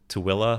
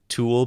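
First: The name is said in the local way. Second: The name is read out as it is spelled. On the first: "but you pronounce it Tooele" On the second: "it's spelled"

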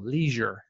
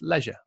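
First: It is said with an American pronunciation. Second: It is said with a British pronunciation.

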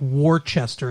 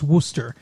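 First: Every written syllable of the word is pronounced. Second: The word is shortened to two syllables. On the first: The speaker calls it wrong. "Even though it's spelled like Worcester" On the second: The speaker calls it right. "it's pronounced Worcester"

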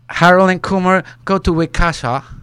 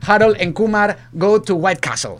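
First: It is said with a British accent. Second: It is said with a Spanish-style accent.

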